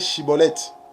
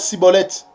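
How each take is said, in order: First: The word begins with a sh sound. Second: The word begins with a plain s sound. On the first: This is the form the Ephraimites could not say. The speaker calls it right. "Ils avaient du mal pour prononcer Chibolette" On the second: This is how the Ephraimites said it. The speaker calls it wrong. "ils prononçaient Cibolette"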